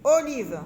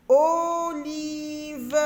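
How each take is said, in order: First: Said in the usual way. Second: "Olive" stretched long, both vowels held level; drawn-out syllables. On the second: Shown as a demonstration. Teacher letting children hear the O, "Olive" stretched out. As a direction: hold each syllable of "Olive" slowly. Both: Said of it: "on a la syllabe O".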